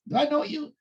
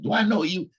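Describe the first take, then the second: First: It sounds curious and questioning. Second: It sounds hostile, with an attitude.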